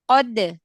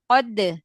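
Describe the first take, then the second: Both takes have the same delivery.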